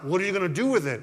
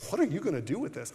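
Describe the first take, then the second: First: It sounds stern and demanding. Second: It sounds eager and curious.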